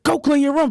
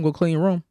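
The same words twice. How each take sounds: First: It is said in a stern, forceful tone. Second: It is said in a calm, gentle tone.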